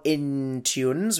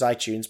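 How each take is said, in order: First: An extra n sound follows the first vowel. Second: No n sound follows the first vowel. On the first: The speaker calls it wrong. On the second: The speaker calls it right.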